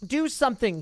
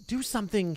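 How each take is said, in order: First: Desperate plea. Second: Said in the usual way. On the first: Acted. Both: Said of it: "he said desperately".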